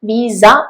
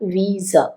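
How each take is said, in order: First: The word ends with a clear, full vowel. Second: The word ends with a soft, breathy sound. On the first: The speaker calls it wrong. "വിസ അല്ല" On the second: The speaker calls it right. "അതിന്റെ അവസാനം ശ്വാസ sound ആണ്"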